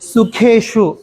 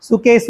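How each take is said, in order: First: The middle consonant is an 'sh' sound. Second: The middle consonant is a plain 's' sound. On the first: The speaker calls it right. "கேஷுன்னு தான் சொல்லணும்" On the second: The speaker calls it wrong. "சுகேசு அப்படின்னு சொல்லக்கூடாது"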